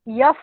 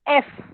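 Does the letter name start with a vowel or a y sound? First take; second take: y sound; vowel. First: It starts with a y sound before the vowel. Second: It starts directly with the vowel sound. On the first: The speaker calls it wrong. "यफ नहीं बोलना है" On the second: The speaker calls it right. "Proper pronunciation"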